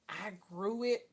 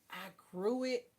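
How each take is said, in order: Both takes have the same delivery.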